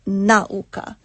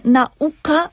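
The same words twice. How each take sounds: First: Nauka stressed on the first syllable, NA-u-ka; wrong Polish stress. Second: Nauka stressed on the U, na-U-ka; correct Polish stress. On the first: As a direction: put the error stress on NA in nauka. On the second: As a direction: say nauka with the accent on U. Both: Shown as a demonstration. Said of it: "nie nauka".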